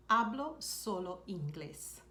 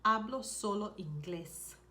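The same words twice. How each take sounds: First: "Hablo solo inglés" said slowly and evenly for learners; slow down and give each word of "Hablo solo inglés"; slow repeat. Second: Said in the usual way. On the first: Shown as a demonstration. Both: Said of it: "Another thing you could say is".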